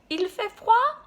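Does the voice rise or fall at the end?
rise. The voice rises at the end, like a question.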